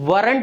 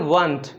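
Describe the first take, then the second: First: The r sound is pronounced strongly. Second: There is no r sound at all. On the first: The speaker calls it wrong. "वरंट नहीं बोलेंगे यहाँ पे, आर को बहुत ज़्यादा stress नहीं करेंगे" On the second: The speaker calls it right. "British pronunciation ... उसमें तो आर बिल्कुल ही साउंड नहीं करेगा"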